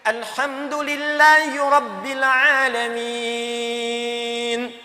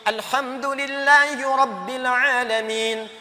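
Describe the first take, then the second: First: The final vowel is held about three seconds. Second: The final vowel is held about one second. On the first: "Tiga detik" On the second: "Satu detik"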